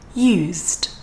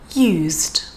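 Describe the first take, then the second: First: The middle consonant is a voiced z sound. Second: The same.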